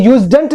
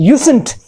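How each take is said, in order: First: Usedn't with z and d, YOOZ-dunt; wrong pronunciation. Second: Usen't with s and no d, YOO-sunt; correct pronunciation. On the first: Teacher shows what not to say, usedn't mispronounced. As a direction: say "usedn't" as YOOZ-dent, sounding the d. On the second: Teacher corrects the mistake, usen't pronounced properly. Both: Shown as a demonstration. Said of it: "ये usedn't नहीं है".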